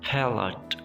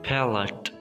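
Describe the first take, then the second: Both takes have the same delivery.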